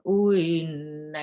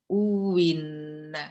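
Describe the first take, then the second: First: The second hamzah is softened, with no w sound. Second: The second hamzah becomes a clear w sound. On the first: "itu tasih" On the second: "itu wawu"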